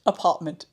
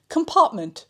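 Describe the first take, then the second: First: Said in the usual way. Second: Laughing at a slip. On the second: Real, not acted.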